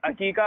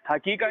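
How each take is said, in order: First: The word begins with a vowel sound. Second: The word begins with an h sound. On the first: The speaker calls it right. "अकीका होता है वो।" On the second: The speaker calls it wrong. "हकीका नहीं"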